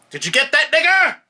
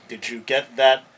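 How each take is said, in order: First: Screamed at the top of the lungs, far higher; police officer's shout. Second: Loud but cut short, word left out; censored version of the quote. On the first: Lawyer reenacting the officer's taped shout for the judges, full-force scream. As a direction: bellow it like a violent cop on tape. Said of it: "I said". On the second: Lawyer mocking the judge's sanitized quote, pointed and clipped. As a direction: skip the slur with a pointed stop. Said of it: "he doesn't say". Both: Retold or imitated.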